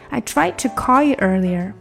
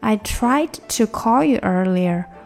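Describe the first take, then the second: First: The sentence is read at a fast pace. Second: The sentence is read at a slow pace. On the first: "再快一点哈" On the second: "先慢一点"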